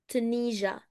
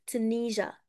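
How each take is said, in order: No difference in how they are said.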